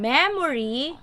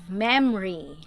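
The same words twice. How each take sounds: First: All three syllables are pronounced in full. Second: The middle vowel is dropped, leaving two syllables. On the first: "from memory" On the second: "you'll have memory"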